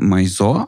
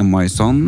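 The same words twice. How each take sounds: First: "Maison" with a silent final n; unsure pronunciation. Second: "Maison" with the final n sounded; alternative pronunciation. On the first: Host unsure of the magazine's name, "Maison" without final n. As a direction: say "Maison" as my-SO, dropping the n. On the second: Host correcting the magazine's name, "Maison" with sounded n. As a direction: say "Maison" slowly as my-SON, with an n. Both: Shown as a demonstration. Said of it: "vet ikke helt hvordan vi uttaler".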